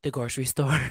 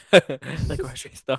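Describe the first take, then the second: First: Said in the usual way. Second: Drawn-out slow laughing repeat; slowly repeating the grocery store while laughing. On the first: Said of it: "answers, then repeats slowly". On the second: Real, not acted. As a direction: stretch it out slowly through a laugh. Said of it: "repeats slowly, laughing".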